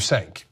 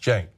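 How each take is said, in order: First: The name begins with an S sound. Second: The name begins with a J sound. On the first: The speaker calls it wrong. "Which is the number one thing that people say" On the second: The speaker calls it right. "this is pronounced like a J in Turkish, it's pronounced jank"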